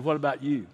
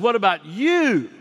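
First: Said in the usual way. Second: What about you? said higher and louder with you hit hard; emphatic question. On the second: Shown as a demonstration. Preacher voicing Jesus's question, emphatic stress on you.

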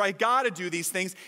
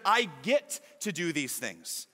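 First: Said in the usual way. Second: Slower, lower, with I get to leaned on as a privilege; stress on get to. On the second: Shown as a demonstration. Pastor contrasting duty with privilege, dwelling on get to. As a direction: savour "get to" in "I get to do these things" as a gift, not a duty. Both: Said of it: "instead of".

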